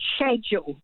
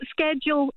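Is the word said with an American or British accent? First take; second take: British; American. First: It is said the British way. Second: It is said the American way.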